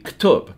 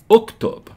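First: It begins with two consonants and no vowel. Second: It begins with a short helping vowel. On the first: The speaker calls it wrong. "we can't say that in Arabic because it begins a word with two consecutive consonants" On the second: The speaker calls it right. "we're going to add this helping vowel here"

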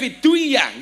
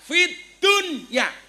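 First: The d merges into the following d. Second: The d is said clearly and separately. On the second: "Ngopo kok diwaca idhar?"

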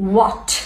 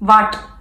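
First: The first sound has the lips rounded in a circle. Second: The first sound has the lip touching the teeth. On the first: The speaker calls it right. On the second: The speaker calls it wrong.

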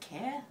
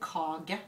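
First: The middle consonant is dropped entirely. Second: A soft g sound is heard mid-word. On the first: This is how Danish speakers say it. "De sier jo kæ. Så de har bare forsvunnet helt" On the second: This is how the southern Norwegian dialect says it. "sånn som vi sier hos oss"

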